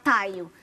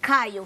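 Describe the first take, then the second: First: The name begins with a t sound. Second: The name begins with a k sound. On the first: A child who cannot make the back sound says it this way. "vai falar Taio" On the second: This is the intended name. "que nem quando fala é, é, Caio"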